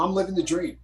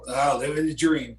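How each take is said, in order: First: It is said in a sincere, earnest way. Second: It is said in a weary, sarcastic way.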